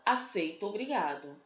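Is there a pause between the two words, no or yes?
no. The two words run together without a pause.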